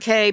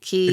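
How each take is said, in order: First: The word sounds like the letter K. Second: The word sounds like the word key. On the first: "people pronounce it K" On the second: "people pronounce it Key"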